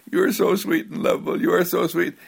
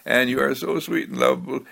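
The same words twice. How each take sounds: First: Put-on higher, faster sing-song praise to a baby; cooing to a baby. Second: Said in the usual way. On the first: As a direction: gush over the child in baby talk. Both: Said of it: "you say".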